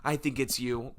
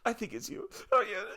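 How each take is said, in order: First: Said in the usual way. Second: High, quavering fake cry; badly faked sobbing voice; hammed-up weepy squeak; mock tearful. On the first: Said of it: "voting me out". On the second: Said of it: "start bawling my eyes out".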